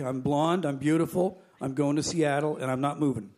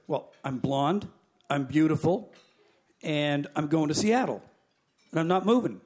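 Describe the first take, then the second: First: Quicker run-through, no pauses between claims; same old story. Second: Lightly acted stubborn passenger, point by point; self-satisfied refusal. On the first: Acted. Retelling the refusal to the head attendant, rote recap. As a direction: rattle it off as a familiar refrain. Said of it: "Same old story". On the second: Blonde passenger refusing the stewardess, deliberate and unbudging.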